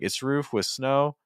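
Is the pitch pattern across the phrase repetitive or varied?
repetitive. Roof and snow use the same pitch pattern. The phrase sounds monotonous to the listener. The speaker calls it wrong. "it sounds too similar"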